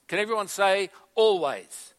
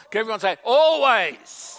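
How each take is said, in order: First: Said in the usual way. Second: Much higher and louder, Always belted out; rousing call. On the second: Shown as a demonstration. Pastor urging church to answer, loud and rousing. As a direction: pump the crowd up on Always. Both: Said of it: "Oh, come on, come on".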